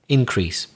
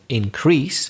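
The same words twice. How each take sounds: First: The stress is on the first syllable. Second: The stress is on the second syllable. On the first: It is used as a noun. "if they're nouns, we again, just like conduct, stress the first syllable" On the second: It is used as a verb. "the verb shifts, changes to the second syllable, the stress"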